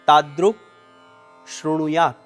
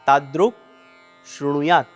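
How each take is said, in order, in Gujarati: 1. આ બે શબ્દો છૂટા શબ્દો તરીકે બોલાય છે. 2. આ બે શબ્દો છૂટા શબ્દો તરીકે બોલાય છે.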